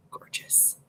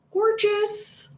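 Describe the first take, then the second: First: Very soft, voiceless whisper; awed whisper. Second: Very high, held-out squeak of delight; high-pitched gushing. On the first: Streamer admiring two eyeshadow shades, awed whisper. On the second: Streamer gushing over eyeshadow shades, high-pitched delight. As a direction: sing it out way up high. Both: Real, not acted.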